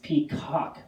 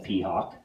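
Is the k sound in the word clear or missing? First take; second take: clear; missing. First: The k sound is clearly pronounced. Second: The k sound is missing or unclear. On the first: The speaker calls it right. "the k sound" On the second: The speaker calls it wrong. "she doesn't say the word right"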